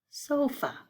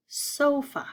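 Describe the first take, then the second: First: Said in the usual way. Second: "sofa" lifted high, syllables pulled apart; syllable chunking. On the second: Shown as a demonstration. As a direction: sing out "sofa" in two bright chunks. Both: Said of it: "Two syllables there".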